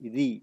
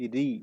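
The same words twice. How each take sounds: No difference in how they are said.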